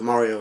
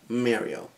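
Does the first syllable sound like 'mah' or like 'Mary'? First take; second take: mah; Mary. First: The first syllable sounds like 'mah'. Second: The first syllable sounds like 'Mary'. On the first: The speaker calls it right. "why can't just everybody else pronounce it Mario" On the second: The speaker calls it wrong. "it sounds like the words Mary and the letter O put together"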